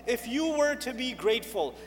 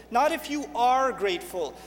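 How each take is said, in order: First: "were" as the stressed word, falling close. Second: "are" stressed as the rejected wording. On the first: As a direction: lean on "were" in "If you were to be grateful". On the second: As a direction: lean on "are" to contrast it. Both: Shown as a demonstration. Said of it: "is mentioned in the past tense".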